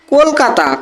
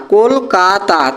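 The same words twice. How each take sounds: First: Said in the usual way. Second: Kolkata slowly divided into কল, কা, তা; three syllables. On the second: Shown as a demonstration. Teacher counting three syllables, Kolkata syllable by syllable. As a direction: give each part of Kolkata its own beat. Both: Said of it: "তিনটে syllable".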